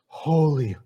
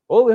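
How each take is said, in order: First: The word is said slowly and reverently. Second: The word is said quickly and casually. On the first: It is said with awe and fear. The speaker calls it right. "For the reader to read it slowly, reverently, with fear, like this" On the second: It is treated as casual and unimportant. The speaker calls it wrong. "So that the reader would not go like this. This is how we often sing it sometimes"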